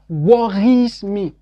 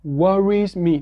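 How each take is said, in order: First: It is said with a French accent. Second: It is said with a natural English accent. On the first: The speaker calls it wrong. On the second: The speaker calls it right.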